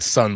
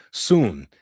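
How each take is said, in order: First: "son" with a short uh, like sun; mispronounced slang word. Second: "Soon" with a long oo, drawn out; corrected slang word. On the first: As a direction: say "son" to rhyme with fun. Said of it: "I almost said son". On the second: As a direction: say "Soon" slowly with a long oo vowel. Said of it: "I caught myself". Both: Shown as a demonstration.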